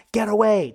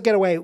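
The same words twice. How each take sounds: First: A louder, higher get away; retold yell. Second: Loud get away, clipped short; retold yell. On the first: Steve shielding the grenade, yelling at Carter to get away. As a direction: call her off, urgent. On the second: Steve over the grenade, yelling at Carter. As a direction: warn her off, urgent.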